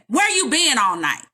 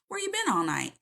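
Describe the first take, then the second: First: It sounds harsh and accusing. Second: It sounds soft and caring.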